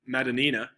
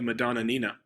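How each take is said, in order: First: The name is said with four syllables. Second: The name is said with five syllables. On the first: The speaker calls it right. "but it's Madonina" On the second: The speaker calls it wrong. "I don't want to say the Madonna Nina. That's too many uhs"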